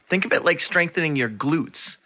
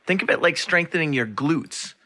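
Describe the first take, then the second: No difference in how they are said.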